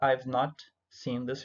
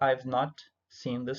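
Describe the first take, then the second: First: The subject and auxiliary are joined into one syllable. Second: The subject and auxiliary are joined into one syllable.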